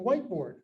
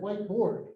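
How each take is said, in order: First: The main stress falls on white. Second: The main stress falls on board. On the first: A specific kind of classroom writing board. "Whiteboard is one word, accent on the first syllable" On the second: "Whiteboard is two words, secondary accent on the first word, main accent on board"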